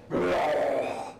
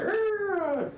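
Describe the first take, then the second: First: Big, full-throated goblin roar; much louder goblin growl. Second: High, thin goblin snarl; ordinary goblin growl. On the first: Game master demonstrates the new loud goblin, big growl. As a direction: imitate a big goblin roaring "rrrr". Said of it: "that volume, much louder". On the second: Game master demonstrates the other goblins, high little growl. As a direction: imitate a small goblin's "rrrr" up high. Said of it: "It's not like these other". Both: Shown as a demonstration.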